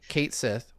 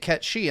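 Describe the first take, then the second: First: The name is said the English way, two words. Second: The name is said the Japanese way, as one word. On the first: "you either say Kate Sith, which makes a certain group of folks mad" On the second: "or you say Ketchi"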